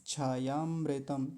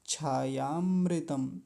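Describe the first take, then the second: First: The two words are run together as one word. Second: The same.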